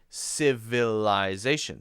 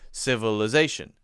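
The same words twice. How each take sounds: First: The middle vowels are pronounced fully and clearly. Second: The middle vowels are relaxed schwa sounds. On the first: "they're actually saying the vowels a little bit more" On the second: "very relaxed. Sounds like uh"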